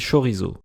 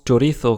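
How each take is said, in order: First: It is pronounced with a French accent. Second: It is pronounced with a Spanish accent. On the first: "on dit chorizo" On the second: "comme en espagnol"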